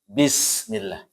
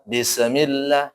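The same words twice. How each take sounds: First: The s sound flows straight on without bouncing. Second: The s sound bounces with an echoing release. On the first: The speaker calls it right. "Langsung ya" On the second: The speaker calls it wrong. "jangan dipantulkan"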